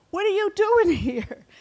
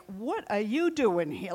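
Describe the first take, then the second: First: High, loud scoffing with a laugh; mocking big brother. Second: Said in the usual way. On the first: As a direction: laugh him off as a nuisance. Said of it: "his brother was so upset".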